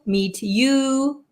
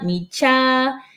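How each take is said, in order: First: The final word is a full 'you'. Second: The final word is reduced to 'cha'.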